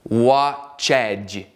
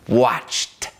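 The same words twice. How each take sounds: First: The word is said as two syllables. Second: The word is said as one syllable. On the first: The speaker calls it wrong. "nem watched" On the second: The speaker calls it right. "estamos ouvindo um leve bafinho de T aqui"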